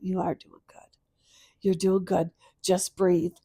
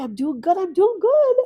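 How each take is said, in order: First: Steady yourself gently, evenly; calm self-reassurance. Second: High retold voice, climbing higher and louder; daughter's reassurance. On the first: Retold or imitated. Mother answers her late daughter's words, calmly reassuring. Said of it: "I stopped last night and I went". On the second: Mother voices her late daughter reassuring her, high and rising. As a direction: lift it into a high, insistent reassurance. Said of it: "she kept going".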